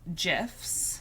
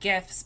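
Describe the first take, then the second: First: It begins with a soft G sound. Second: It begins with a hard G sound. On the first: This is how the inventor named them. "I'm assuming it's called a soft G" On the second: This follows the G in graphic. "that's like a hard G"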